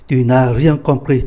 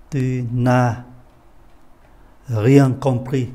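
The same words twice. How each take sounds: First: Said in the usual way. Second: "Tu n'as rien compris" spoken slowly, each word separated, with a long pause after "n'as"; slow careful repeat. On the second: Shown as a demonstration. Teacher repeats slowly for the class, word by word. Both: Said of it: "Tôi xin lỗi, đây có chữ S".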